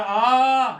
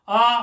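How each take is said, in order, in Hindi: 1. इस स्वर को लगभग तीन सेकंड तक खींचा जाता है। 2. इस स्वर को लगभग एक सेकंड तक खींचा जाता है। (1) "तीसरा तीन में" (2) "पहले वाला हमने एक सेकंड में कहा"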